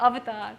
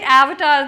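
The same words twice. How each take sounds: First: It is said with a non-American pronunciation. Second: It is said with an American pronunciation. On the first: "as opposed to" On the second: "the way the Americans say it"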